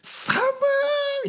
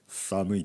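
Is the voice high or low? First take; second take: high; low. First: It is said emotionally with a high voice. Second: It is said flatly with a low voice. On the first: The speaker feels strongly about it. "こう感情が入ると声が高くなるんですね" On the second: The speaker shows no feeling. "低い声で言いますね"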